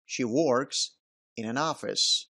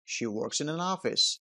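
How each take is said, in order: First: "Works" and "in" are said as separate words. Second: "Works" and "in" run together like one word. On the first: The speaker calls it wrong. "گفته نمیشه که" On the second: The speaker calls it right. "به این صورت تلفظ شد"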